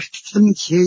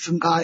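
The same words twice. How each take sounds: First: The second syllable has its modern reading. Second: The second syllable has its ancient reading. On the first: This is how it is read today. "我们现在念的是南无僧伽耶" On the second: This is how it was read in ancient times. "在古代就是读作那么僧伽呀"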